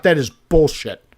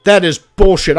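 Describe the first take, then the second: First: Said in the usual way. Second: A louder, indignant "That is bullshit"; louder outburst. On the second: Real, not acted. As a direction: blurt it out louder in protest. Annoyed at the lucky catch.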